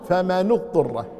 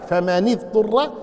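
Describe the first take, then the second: First: "فمن اضطر" read slowly as famanu-ttur, the nun of فمن with a u; nun with damma. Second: "فمن اضطر" read slowly as famani-ttur, the nun of فمن with an i; nun with kasra. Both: Shown as a demonstration. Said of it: "الرسول قرأ كذلك وقرأ كذلك".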